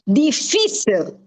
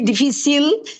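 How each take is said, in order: First: The stress is on the middle syllable. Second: The stress is on the last syllable. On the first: The speaker calls it right. "There is an accent on the fee" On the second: The speaker calls it wrong. "would be difícil because it ends with an L"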